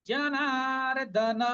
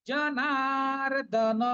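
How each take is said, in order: Both takes have the same delivery.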